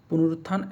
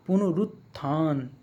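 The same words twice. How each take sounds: First: Said in the usual way. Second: पुनरुत्थान slowly, "punu-rut... thaan"; sounding it out. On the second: Shown as a demonstration. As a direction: split पुनरुत्थान with a drawn-out last syllable. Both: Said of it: "ऐसे नहीं".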